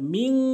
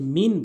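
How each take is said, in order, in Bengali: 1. শেষের n নাক দিয়ে টেনে ধরা হয়। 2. শেষের n সহজ ও ছোট। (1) "গুন্না করতে হবে মিং ... নাকের ভিতরে নিয়ে" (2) "অনেকে মিন বলে"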